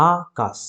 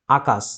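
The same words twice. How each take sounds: First: আকাশ broken as আ, pause, কাশ; two distinct beats in Akash; split into syllables. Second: Said in the usual way. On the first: Shown as a demonstration. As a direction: separate আ from কাশ with a gap. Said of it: "একটা আ, একটা কাশ". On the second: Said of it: "তাহলে দুটো দল".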